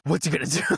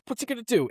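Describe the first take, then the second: First: It sounds light and amused. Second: It sounds tense and frightened. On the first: The killer is a bit silly and entertaining. "It's like, oh" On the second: The killer is scary and threatening. "it's not like you're like, oh my gosh"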